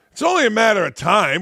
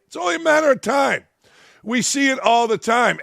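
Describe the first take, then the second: First: Said in the usual way. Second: High, fast and heated; high heated repeat. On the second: Real, not acted. Ranting about locker rooms, he repeats the warning high and fast. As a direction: fire the warning off again, pitched up.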